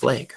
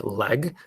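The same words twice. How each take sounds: First: LEG as "laig", Minnesota style; Minnesota accent. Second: LEG with an open "eh" vowel; short, pure vowel in "leg"; short e sound. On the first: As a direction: Minnesotan long-a vowel in "leg". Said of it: "instead of leg". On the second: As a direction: say "leg" with the e of "bed". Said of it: "why they say it like leg instead of leg". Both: Shown as a demonstration.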